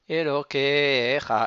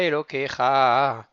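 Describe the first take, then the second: First: The stress is on the second-to-last syllable. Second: The stress is on the final syllable. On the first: The speaker calls it right. "c'est l'avant-dernière syllabe qui va être jouée" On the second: The speaker calls it wrong. "et pas"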